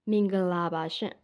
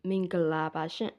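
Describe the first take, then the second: No difference in how they are said.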